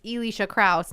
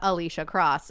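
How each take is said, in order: First: The surname rhymes with house. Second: The surname rhymes with boss. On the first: The speaker calls it right. "it's Elisha Kraus" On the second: The speaker calls it wrong. "not Alicia Cross"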